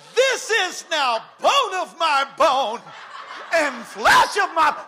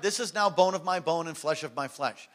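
First: It is shouted with wild excitement. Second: It is read flatly, without excitement.

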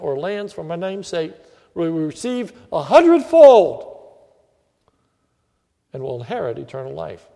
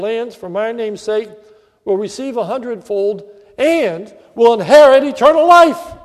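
First: The stress falls on a hundredfold. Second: The stress falls on eternal life.

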